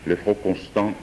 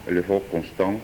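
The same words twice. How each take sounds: The two takes are said the same way.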